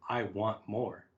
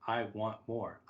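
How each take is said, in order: Both takes have the same delivery.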